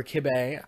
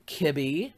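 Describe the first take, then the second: First: Kibbeh said as kib-AY; kibbeh, ending like bay; alternative pronunciation attempt. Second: Kibbeh said as KIB-ee; kibbeh, rhyming with Libby; first pronunciation attempt. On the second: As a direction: say kibbeh with an ee ending. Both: Shown as a demonstration. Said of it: "I don't know how to pronounce that".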